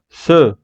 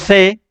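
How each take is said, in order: First: The vowel is a reduced French-style e. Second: The vowel is a plain open Spanish e. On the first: The speaker calls it right. "sino se, se. Tengo que hacer la E francesa" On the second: The speaker calls it wrong. "No digo se"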